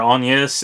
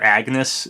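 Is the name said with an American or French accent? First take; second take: French; American. First: The name is said with a French accent. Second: The name is said with an American accent. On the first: "It's like a French accent thing" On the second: "an Americanized version of that"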